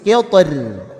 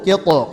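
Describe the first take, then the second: First: The final r is pronounced light and thin. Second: The final r is pronounced heavy and thick. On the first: "Roknya tipis" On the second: "Toknya tebal dulu"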